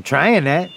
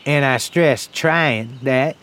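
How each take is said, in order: First: Said in the usual way. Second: Slow, deliberate weight on "trying"; stress on "trying". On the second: Acted. Old man daring a gunhand, "trying" slowly stressed. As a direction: draw out "trying" and set it apart from "that".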